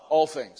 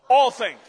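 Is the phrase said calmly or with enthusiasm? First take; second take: calmly; with enthusiasm. First: It is said in a plain, calm way. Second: It is said loudly with lively enthusiasm. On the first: "Say it with me" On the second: "say it with enthusiasm"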